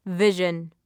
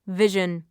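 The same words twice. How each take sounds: The two takes are said the same way.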